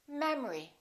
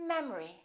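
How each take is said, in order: No difference in how they are said.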